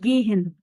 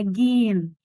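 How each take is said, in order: First: An h sound is heard in the middle. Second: No h sound is heard in the middle. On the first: The speaker calls it wrong. "حرف الهاء في النص. اوعى تنطق، ما تقوليش جيهن" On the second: The speaker calls it right. "اسمها جين"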